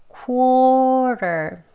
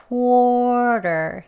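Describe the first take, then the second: No difference in how they are said.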